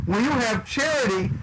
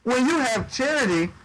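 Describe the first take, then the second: No difference in how they are said.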